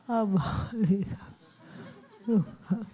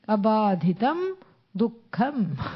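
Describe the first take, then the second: First: It is said grimly, without a smile. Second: It is said lightly, with a smile.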